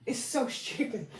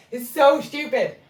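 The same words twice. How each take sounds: First: Softly to herself, trailing; quiet aside. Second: Louder and higher, hitting so; exasperated, said out loud; emphatic repeat. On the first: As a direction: say it under your breath. Repeats remark, first muttered. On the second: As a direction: punch the word so with disbelief. Repeats remark, now emphatic. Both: Real, not acted.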